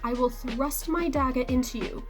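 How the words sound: It is spoken in a British accent. "that's my bad British accent"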